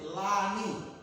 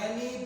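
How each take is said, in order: First: The first vowel sounds like a. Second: The first vowel sounds like e. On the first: The speaker calls it right. "tapi Lani" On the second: The speaker calls it wrong. "Bukan Leni"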